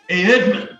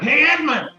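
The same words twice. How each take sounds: First: It is said in a toned-down natural voice. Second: It is said in an exaggerated raspy Rochester voice.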